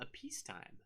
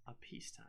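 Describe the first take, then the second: First: High, very soft, delicate; hushed. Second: Dramatic stage whisper. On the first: Author teasing the next book's setting to viewers, hushed. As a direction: say it softly and high, with dramatic suspense. Dramatic contrast with war. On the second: Author repeating the new setting to viewers, whispered. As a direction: drop to a voiceless whisper on the repeat. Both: Acted.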